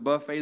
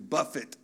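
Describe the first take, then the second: First: The stress is on the second syllable. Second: The stress is on the first syllable. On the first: It refers to an all-you-can-eat meal. The speaker calls it wrong. "You say, well, the Bible says to buffet the body" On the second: It means to strike or discipline. The speaker calls it right. "No, it says to buffet the body. It's a matter of how you pronounce it"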